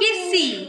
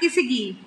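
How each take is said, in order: First: The word is said with two syllables. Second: The word is said with three syllables. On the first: The speaker calls it right. "Kissy, not kissigi" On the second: The speaker calls it wrong. "not kissigi"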